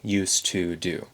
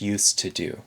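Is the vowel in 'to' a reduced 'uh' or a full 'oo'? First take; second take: oo; uh. First: The word 'to' has a full 'oo' vowel. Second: The word 'to' has a reduced 'uh' vowel. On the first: This is how it is sung in the song. "with that oo sound instead of the uh sound in to" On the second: This is ordinary everyday speech. "how you would say it in natural speech"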